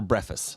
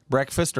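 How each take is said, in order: First: Breakfast said as "BREFF-ist"; slurred variant pronunciation. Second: Said in the usual way. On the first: Shown as a demonstration. Co-host polling the room on two versions, breakfast as "breffist". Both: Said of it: "what do you guys say".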